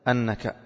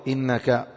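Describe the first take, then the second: First: The word starts with an a vowel. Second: The word starts with an i vowel. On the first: "بفتح الهمزة" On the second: "والباقون بكسرها"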